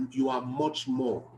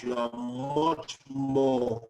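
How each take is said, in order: First: Said in the usual way. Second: MUCH and MORE drawn out very slowly; emphatic repeat. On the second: Real, not acted.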